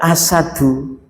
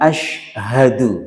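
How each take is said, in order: First: It begins with a plain s sound. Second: It begins with an sh sound. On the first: The word means lion. The speaker calls it wrong. "Itu kalau salah pengucapan" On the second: The word means I bear witness. The speaker calls it right. "Maka kita ucapkan asyhadu"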